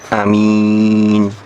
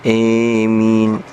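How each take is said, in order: First: The first vowel is a short a. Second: The first vowel is a long e-like sound. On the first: "dibaca qasr. Jadi a-nya pendek" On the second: "dibaca imalah... sehingga bacanya emin"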